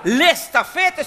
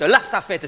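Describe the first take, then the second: First: "L'estafette" with a clear les at the start; high, stretched-out "L'estafette": lesss-tafette; pronunciation contrast. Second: "stafette" begun on st after "La"; even "La stafette", no es sound; pronunciation contrast. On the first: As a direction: slowly stress the es in "L'estafette". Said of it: "ils font pas la différence". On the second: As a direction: say "La stafette" as la sta-fette. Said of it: "c'est une voiture". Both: Shown as a demonstration.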